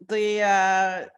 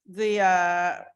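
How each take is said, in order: No difference in how they are said.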